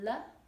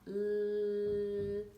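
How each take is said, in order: First: An uh vowel follows the consonant sound. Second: The consonant sound is said alone, no vowel. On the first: The speaker calls it wrong. "Not l" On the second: The speaker calls it right. "but l"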